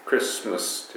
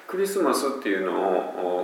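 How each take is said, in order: First: クリスマス said as two English syllables, kris-mas; クリスマス with the vowels dropped, krismas; English two-syllable Christmas. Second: クリスマス said as five even Japanese syllables, ku-ri-su-ma-su; クリスマス with a vowel after every consonant, katakana style; Japanese five-syllable Christmas. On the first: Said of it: "二つですよっていう". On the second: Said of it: "五音節で僕らは喋りますね". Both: Shown as a demonstration.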